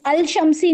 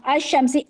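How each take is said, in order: First: अल-शमसी with a clear l, al-shamsi; अल-शमसी spoken as al-shamsi, not assimilated; wrong form shown. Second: अश-शमसी said with the sh doubled, no l sound; अश-शमसी pronounced ash-shamsi with a held sh; correct assimilated form. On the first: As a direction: show the mistake, say अल-शमसी with the lam sounded. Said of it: "नहीं बोलते". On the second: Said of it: "सबसे best तरीका है जब आप बोल के देंगे". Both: Shown as a demonstration.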